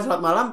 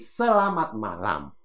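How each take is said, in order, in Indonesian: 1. Suku katanya dipotong-potong dan diucapkan pendek. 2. Setiap suku kata diucapkan penuh dan jelas.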